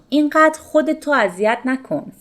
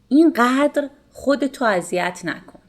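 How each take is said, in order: First: The word 'ro' is said as a separate syllable. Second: The 'r' is dropped, leaving only an 'o' ending.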